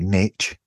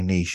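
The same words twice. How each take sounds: First: The word is said with an American pronunciation. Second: The word is said with a British pronunciation. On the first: "Americans probably say niche" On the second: "We say niche in the UK"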